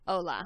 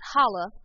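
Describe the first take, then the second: First: The h at the start is silent. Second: The h at the start is pronounced. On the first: The speaker calls it right. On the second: The speaker calls it wrong.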